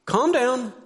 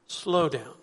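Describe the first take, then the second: First: High, abrupt order; pitched-up telling-off; sharp command. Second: Gentle suggestion. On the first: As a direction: say it as a curt, raised demand. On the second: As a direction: ease it out calmly. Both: Shown as a demonstration. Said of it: "just hear that difference".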